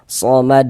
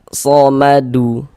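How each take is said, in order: First: The word ends on a bouncing, unvoweled consonant. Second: The word ends with an added short vowel. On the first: The speaker calls it right. "Maka berarti dia mantul" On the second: The speaker calls it wrong. "jangan dibaca somadu baru berwakaf baru berhenti gitu. Jangan ya, salah"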